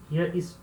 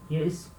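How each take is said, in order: Both takes have the same delivery.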